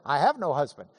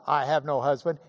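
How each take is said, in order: First: Said in the usual way. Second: Echoed back with a rising, teasing lift; knowing echo. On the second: Retold or imitated. Jesus repeats the woman's words, teasing. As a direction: hand her own words back, amused.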